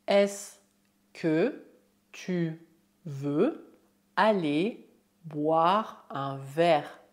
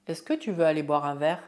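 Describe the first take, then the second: First: Slow, word-by-word French question. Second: Fast, flowing French question; normal speed. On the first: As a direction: spell it out slowly, pausing after each word. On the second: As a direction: run it together at natural speed. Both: Shown as a demonstration. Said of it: "é possível usar a fórmula est-ce que oralmente".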